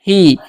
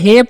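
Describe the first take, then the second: First: The vowel sounds like a long 'ee'. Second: The vowel sounds like a short 'eh'. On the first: The speaker calls it right. "इसीलिए इसे पढ़ते हैं ही" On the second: The speaker calls it wrong. "इसे हे पढ़ने का गलती नहीं करना है"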